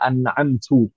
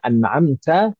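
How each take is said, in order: First: The final syllable ends with a 'u' vowel. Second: The final syllable ends with an 'a' vowel. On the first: The speaker calls it wrong. "kemudian dibaca ... Maka itu kesalahan fatal, merubah makna" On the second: The speaker calls it right. "yang aslinya"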